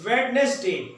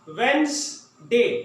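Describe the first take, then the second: First: The middle d and extra syllable are pronounced. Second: The middle d and extra syllable are dropped. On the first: The speaker calls it wrong. "ये हम पढ़ते हैं, ये गलत है" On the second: The speaker calls it right. "मेरे साथ आप पढ़ें"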